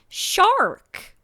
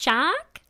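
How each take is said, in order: First: The R sound is strongly pronounced. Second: The R sound is dropped. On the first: "very American accent. ... the R was R-ing. ... It was a hard R" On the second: "no matter how much I tried to be like"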